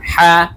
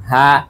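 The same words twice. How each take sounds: First: Hard guttural হা from inside the throat. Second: হা said plainly, from the mouth; normal ha. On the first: Teacher showing the throat letter to students, guttural হা. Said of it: "গলার ভেতর থেকে প্রথমটি". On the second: Teacher contrasting with the throat letter, plain হা. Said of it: "পরেরটি হচ্ছে normally হা". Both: Shown as a demonstration.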